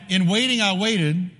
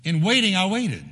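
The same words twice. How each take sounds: First: In waiting rising, I waited set apart; lifted rendering. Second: In waiting lifted, then I waited falling to rest; settled rendering. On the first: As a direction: offer the phrase as a bright new reading. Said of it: "Or here's one". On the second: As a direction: land the phrase firmly and close it. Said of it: "emphasizes a word twice". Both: Shown as a demonstration.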